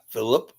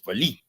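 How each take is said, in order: First: The name is said with an English accent. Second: The name is said with a French accent. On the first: The speaker calls it wrong. "not Philip" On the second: The speaker calls it right. "with the French accent. It's Philippe"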